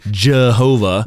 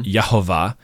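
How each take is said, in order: First: The name begins with a J sound. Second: The name begins with a Y sound. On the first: The speaker calls it wrong. "there is no J sound in Hebrew. It's not Jehovah" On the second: The speaker calls it right. "It's at best Yahweh or Yehovah"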